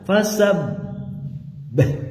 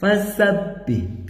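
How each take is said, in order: First: The doubled b is held and drawn out. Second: The doubled b is pressed firmly and briefly. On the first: The speaker calls it wrong. "Bukan ditahan, bukan" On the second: The speaker calls it right. "Tapi ditekan"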